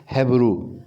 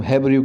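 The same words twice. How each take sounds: First: हेब्रू said as hebru, a clean two-syllable word with no extra i; correct pronunciation. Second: हेब्रू said as hebriu, with an extra i sound before the final u; wrong pronunciation. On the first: Teacher giving students the correct way to say हेब्रू. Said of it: "बल्कि यहाँ पे क्या लिखा है". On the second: Teacher showing students the wrong way to say हेब्रू. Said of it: "बल्कि ये हेब्रू नहीं है". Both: Shown as a demonstration.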